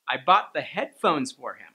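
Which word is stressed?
headphones. The stress falls on the word "headphones". The headphones were bought, but nothing else. "headphones is already a content word, but I added that higher intonation"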